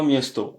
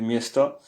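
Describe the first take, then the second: First: Miesto with a full O at the end; wrong pronunciation. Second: Miesta with stress on mies and a final A sound; right pronunciation. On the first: Teacher to French learners showing the wrong ending: miesto. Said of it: "On dit pas miesto". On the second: Teacher to French learners giving the right form: miesta. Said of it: "on dit miesta". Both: Shown as a demonstration.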